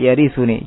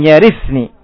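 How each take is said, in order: First: The verb is said with a u vowel before -ni. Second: The verb is said with no vowel before -ni. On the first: The verb describes the heir as an attribute. "maka di dhamma yarithuni" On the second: The verb is the result of the request. "dibaca dalam qira'ah yang lain dengan jazm yarithni"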